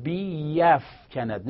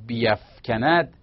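First: بیفکند drawn out slowly with a fall; very slow demo. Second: بیفکند drawn out slowly, biafkanad, with a rise; slow demo. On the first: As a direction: say بیفکند very slowly, falling at the end. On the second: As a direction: stretch بیفکند syllable by syllable. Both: Shown as a demonstration.

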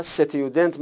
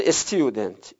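First: ستیودنت starting straight on s, no "e" before it; consonant-first start. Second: استیودنت with a short "e" before the st; initial kasra pronounced. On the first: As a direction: begin ستیودنت on a vowelless s. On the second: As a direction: begin استیودنت on an audible "e" vowel, es-tudent. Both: Shown as a demonstration.

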